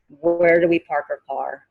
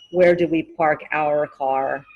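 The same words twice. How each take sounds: First: 'Our' is reduced to sound like 'are'. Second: 'Our' is fully pronounced like 'hour'. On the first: "Our sounds like our" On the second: "it's just easier than saying"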